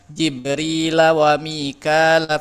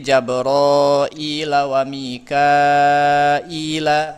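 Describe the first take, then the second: First: The names are said without an extra vowel sequence. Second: The names are said with an extra a-i vowel sequence. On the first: This is how the local reading tradition recites it. "Kalau di kita kan" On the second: This is how another reading tradition recites it. "dalam riwayat lain jadi"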